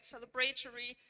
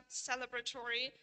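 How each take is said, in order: First: "celebratory" stressed on BRAY; "celebratory" as cele-BRAY-tory, full diphthong; stress attracted. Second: "celebratory" stressed on CEL, with a light, reduced A; "celebratory" as CEL-ebratory, short vowel before "tory"; stress preserved. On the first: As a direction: put the main stress of the first "celebratory" on BRAY. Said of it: "able to attract stress in these approaches". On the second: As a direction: keep the main stress of "celebratory" on its first syllable. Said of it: "if the syllable were light". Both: Shown as a demonstration.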